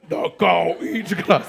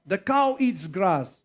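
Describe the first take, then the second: First: It is said in a changed, put-on voice. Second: It is said in a normal voice.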